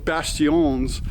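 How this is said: The word is said with a French pronunciation.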